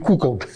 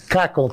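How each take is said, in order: First: The first vowel sounds like 'u'. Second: The first vowel sounds like 'a'. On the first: The speaker calls it wrong. "Не кукол" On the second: The speaker calls it right. "какол через А"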